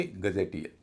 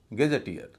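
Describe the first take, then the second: First: गजेटियर said with a short "ga" first syllable, as learners guess; wrong pronunciation. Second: गैजेटियर said with an open "gae" first syllable, a light middle "je" and stress on the final "tier"; correct pronunciation. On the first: Teacher shows students the common mistake, saying गजेटियर with a short "ga". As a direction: say गजेटियर as ga-je-TIER, with a short flat first vowel. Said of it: "न कि गजेटियर". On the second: Teacher shows students the right way, saying गैजेटियर as gae-je-TIER. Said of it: "तो शब्द का उच्चारण होगा गैजेटियर". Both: Shown as a demonstration.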